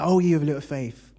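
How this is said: It sounds judgmental and disappointed.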